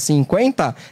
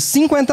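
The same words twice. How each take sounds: First: The stress falls on the middle syllable, quen. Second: The stress falls on the first syllable, cin. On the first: "como a gente fala, cinquenta, é no quen" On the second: "Ela trazia para o sim"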